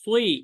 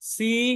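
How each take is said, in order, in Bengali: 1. এই অক্ষরটা ভারী আর ভরাট শোনায়, 'soi'-এর মতো। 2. এই অক্ষরটা পাতলা আর হালকা শোনায়, 'si'-এর মতো।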